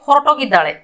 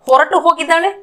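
First: The words are joined and the final u is dropped. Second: The two words are said separately with the final u.

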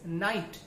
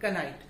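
First: The initial k is silent. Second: The initial k is pronounced. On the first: The speaker calls it right. "That is night" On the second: The speaker calls it wrong. "not knight"

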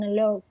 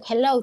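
First: The h at the start is dropped. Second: The h at the start is sounded. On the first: This is how Italians say it. "aquí no pronuncian la H" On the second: This is the usual English way. "no te dicen hello"

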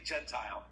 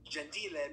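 First: The name is said with an English pronunciation. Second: The name is said with an Italian pronunciation. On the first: It sounds like the biblical word. "so many people say Gentile, because I know the Gentiles from the Bible" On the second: It means gentle or nice. "in the Italian pronunciation"

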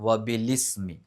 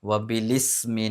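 Both takes have the same delivery.

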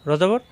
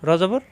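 Both takes have the same delivery.

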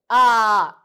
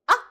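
First: The falling syllable is drawn out long. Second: The falling syllable is clipped very short. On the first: The speaker calls it wrong. "No need to say" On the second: The speaker calls it right. "So it should be very short"

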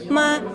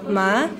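First: The pitch stays high and level. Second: The pitch rises from mid to high. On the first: It means mother. "А «ма» – это «мама»" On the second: It means grass. "«ма» – это «трава»"

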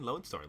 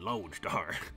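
First: It is said in a plain, non-southern accent. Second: It is said in a southern cowboy drawl. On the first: The listener is not understood by the locals. The speaker calls it wrong. "If you don't use a southern drawl, people won't know what you're talking about" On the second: The speaker sounds like a local. The speaker calls it right. "Nah, boy, you in Lone Star"

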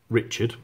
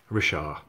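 First: It is pronounced like the English name Richard. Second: It is pronounced the French way, like Ree-shar. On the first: The speaker calls it wrong. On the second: The speaker calls it right.

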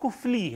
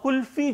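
First: The f comes before the l. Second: The l comes before the f. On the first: This is the original form of the word. The speaker calls it right. "असल लफ्ज जो है वो कुफली है" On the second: This is the common everyday form. The speaker calls it wrong. "कुल्फी जो है वो बेटा कोई लफ्ज नहीं है"

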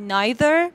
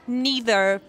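First: It is said with a British pronunciation. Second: It is said with an American pronunciation. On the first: "به قول بریتیشیا" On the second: "به قول اونایی که امریکن صحبت میکنن"

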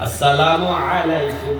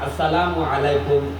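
First: The greeting is said in full, assalamu alaikum. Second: The greeting is said in full, assalamu alaikum.

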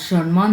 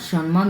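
The two takes are said the same way.

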